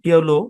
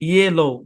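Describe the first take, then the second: First: The first syllable sounds like 'yo'. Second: The first syllable sounds like 'yeh'. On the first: "আমরা ইয়োলো বলি" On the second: "ইয়েলো উচ্চারণ"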